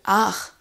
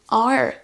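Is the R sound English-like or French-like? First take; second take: French; English. First: The R is a French-style R. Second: The R is an English-style R. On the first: The speaker calls it wrong. "au lieu de are" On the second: The speaker calls it right. "On dira are"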